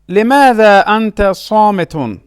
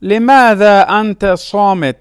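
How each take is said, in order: First: صامت said "saa-mi-tun"; full case ending. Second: صامت said "saa-mit", stopping on t; pausal ending. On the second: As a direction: drop the "-un" from صامت. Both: Shown as a demonstration.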